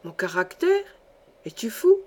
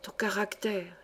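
First: Incredulous questions leaping up in pitch; stupefied. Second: Hushed, much softer, confiding; whispered. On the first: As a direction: question it in sheer disbelief. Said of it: "Stupéfait, Alfred ouvrait de grands yeux". (stupéfait, incrédule) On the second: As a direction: murmur it secretly into his ear. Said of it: "chuchota près de l'oreille". (chuchoté à l'oreille) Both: A narrator's reading.

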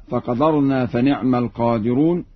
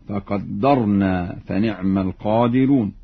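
First: Said in the usual way. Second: فقدرنا as "faqaddarna", holding the d; doubled dal. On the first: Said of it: "يقرأ ورش بتشديد الدال". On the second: Shown as a demonstration. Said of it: "يقرأ ورش بتشديد الدال هكذا". (فقدرنا بتشديد الدال)

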